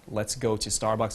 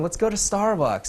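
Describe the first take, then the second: First: It sounds calm and confident, without rising uptalk. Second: It sounds needy and pleading, with rising uptalk. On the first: The speaker does not care much whether she comes. The speaker calls it right. "who's not the needy one" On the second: The speaker is basically begging her to come. The speaker calls it wrong. "you're using uptalk, that's coming off as needy"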